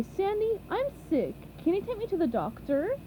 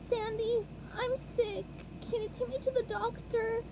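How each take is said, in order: First: Lightly imitated sick plea; Sandy mimics SpongeBob at speed; quick mock SpongeBob. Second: High, quiet sick sponge voice; a high, soft, sniffly little plea; SpongeBob voice. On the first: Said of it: "than you can say". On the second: A narrator's reading. SpongeBob character voice.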